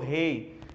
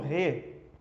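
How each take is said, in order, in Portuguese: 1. Termina no ditongo 'ei'. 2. Termina em vogal simples 'e'. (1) "outras pessoas pronunciam rei" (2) "Algumas pessoas pronunciam re"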